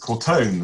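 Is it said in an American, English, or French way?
American. The second syllable sounds like "tone", American style.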